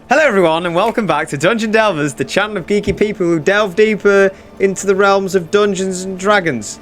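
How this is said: The speaker sounds hesitant and unsure.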